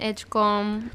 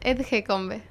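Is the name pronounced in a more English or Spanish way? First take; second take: English; Spanish. First: The name has a more English-sounding pronunciation. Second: The name has a less English-sounding pronunciation.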